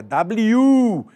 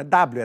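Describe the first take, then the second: First: "W" said as da-bli-ÚUU, end drawn out; "W" with an exaggerated long stressed last syllable; corrected pronunciation. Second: "W" said as DÁ-blio; "W" squashed into dáblio; wrong pronunciation. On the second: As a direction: stress the first syllable of "W", short ending. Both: Shown as a demonstration. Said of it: "Vou corrigir o professor".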